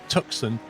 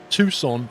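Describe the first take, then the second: First: It is pronounced the way outsiders say it. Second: It is pronounced the way locals say it. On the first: The speaker calls it wrong. "and not Tucson" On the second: The speaker calls it right. "Or Tucson"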